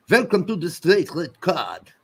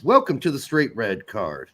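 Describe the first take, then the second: First: Lightly put-on French accent, welcome with a V; a hint of a French accent, a bit higher. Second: Said in the usual way. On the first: Podcast host does a French accent for a listener. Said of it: "That's my best French impersonation". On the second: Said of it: "No, how would".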